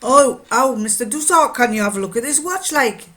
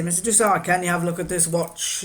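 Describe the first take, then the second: First: Loud, higher Geordie customer; Geordie accent. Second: Said in the usual way. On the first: Retold or imitated. Miner asking to have his watch looked at, Geordie accent. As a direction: swing into broad, imitated Geordie. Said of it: "he'd say it in Geordie".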